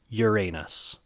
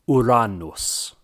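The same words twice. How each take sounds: First: It uses the popular everyday pronunciation. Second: It uses the classical Latin pronunciation. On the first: "popularly among many people is" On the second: "I like to stick with the classical Latin version and pronounce it"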